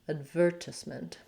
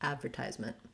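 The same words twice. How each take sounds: First: British accent, stress on the second syllable. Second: American accent, with a held final T. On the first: "they use the second syllable stress" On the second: "so I use more of a stop T"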